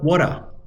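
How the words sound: It is spoken in an Australian accent. "Orang Australia bilang water"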